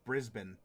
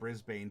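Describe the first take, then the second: First: It is pronounced the Australian way. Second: It is pronounced the American way. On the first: "I will pronounce it as you have" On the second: "although I'm used to calling it Brisbane, but I have an American accent"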